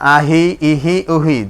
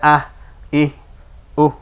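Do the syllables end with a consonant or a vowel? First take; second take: vowel; consonant. First: Each syllable ends with a short vowel. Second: Each syllable ends with a bare consonant. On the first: The reading continues without stopping. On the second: The reading stops here.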